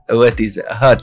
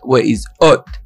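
First: The word hot begins with an h sound. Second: The word hot is said without the h sound.

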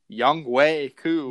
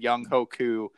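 First: The middle part is said like 'way'. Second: The middle part is said like 'ho'. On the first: The speaker calls it right. "It turns out you pronounce this" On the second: The speaker calls it wrong. "I've been pronouncing his name all wrong this whole year"

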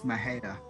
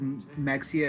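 First: The middle consonant is an h sound. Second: The middle consonant is a ks sound. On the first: This is how the name is really said. The speaker calls it right. "it's like no, it's Mahia" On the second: This is how most outsiders say the name. The speaker calls it wrong. "everybody says Mexia"

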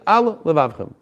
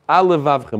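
First: A short pause separates the two words. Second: The words run together quickly with one l sound. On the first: The speaker calls it right. "you have to say" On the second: The speaker calls it wrong. "if you said it quickly, it might sound"

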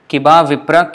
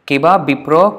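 First: The second word begins with a V sound. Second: The second word begins with a B sound. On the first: "This is how we would probably read it if it was Sanskrit" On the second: "Vipra and bipra is same"

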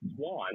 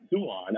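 First: The name sounds like the word swan. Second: The name sounds like soo-ahn. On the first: The speaker calls it wrong. "so it's not Swan" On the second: The speaker calls it right. "it's Suan"

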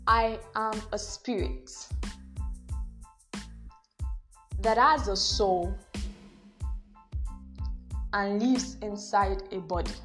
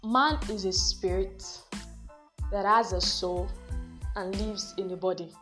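First: It is said slowly and seriously. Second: It is said at a normal pace.

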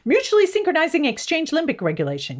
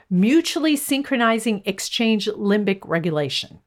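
First: The phrase is said very fast. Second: The phrase is said at a normal pace.

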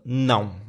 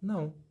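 First: It is shouted harshly and angrily. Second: It is said calmly and politely.

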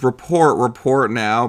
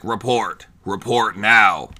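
First: It is said in a plain, normal voice. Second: It is said in a weird, robotic voice.

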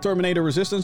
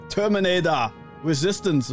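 First: It is said in a plain, flat way. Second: It is said in a big, dramatic way. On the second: "Wauw. Oké, zonder dat wauw"

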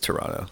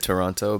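First: The syllables are said quickly and run together. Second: Every syllable is pronounced carefully and fully. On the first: It is the casual, everyday way to say it. "how I really say it is Toronto" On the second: It is the formal, professional way to say it. "for the sake of professionalism, I'll say Toronto"

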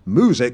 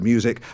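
First: It is said 'moo-sic', with no y sound. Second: It is said 'myoo-sic', with a y sound. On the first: "drop the "y" sound after certain consonants, so they end up saying music" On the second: "instead of music"

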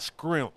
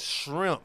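First: The word begins with an 'skr' sound. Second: The word begins with an 'sh' sound. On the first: The speaker calls it wrong. "not scrimps" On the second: The speaker calls it right. "It's shrimp"

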